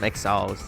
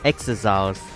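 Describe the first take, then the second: First: It has two syllables, sounding like exiles. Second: It has three syllables, sounding like exosols. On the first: The speaker calls it wrong. "I was pronouncing them exiles" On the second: The speaker calls it right. "so that's how you pronounce it"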